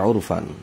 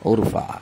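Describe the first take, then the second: First: The word ends with an 'an' sound. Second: The word ends with a plain 'a' sound. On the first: The reading continues without stopping. "আসলে এই শব্দগুলো কিন্তু ফান ফান বলে গেছি আমি।" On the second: The reader stops after the word. "আপনি যদি থেমে যান তা হয় যে উরফা।"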